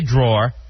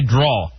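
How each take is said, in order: First: The final R sound is pronounced. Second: The final R sound is dropped. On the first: "I say drawer" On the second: "Like they're uh, taking the R completely out"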